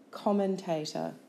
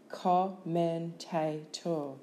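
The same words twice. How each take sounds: First: Said in the usual way. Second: Slow "Commentator" as com, men, ta, tor; syllable by syllable. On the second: Shown as a demonstration. Teacher giving syllables for spelling, Commentator slowly in beats. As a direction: break Commentator into four separate beats.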